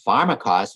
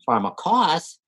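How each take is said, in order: First: The stress is on the first syllable. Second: The stress is on the last syllable. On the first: It means poisoner, sorceress or magician. "When the accent's on the first syllable" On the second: It means one sacrificed as an atonement, a scapegoat. "When the accent's on the last syllable"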